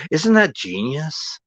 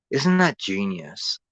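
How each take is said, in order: First: Sarcastic, higher. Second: Said in the usual way. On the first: Real, not acted.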